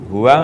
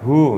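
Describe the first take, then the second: First: The word is said fully with two syllables. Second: The word is cut short to one syllable. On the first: "Huwa ngoten nggih hangsal" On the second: "huwa dibaca wakof jadi hu"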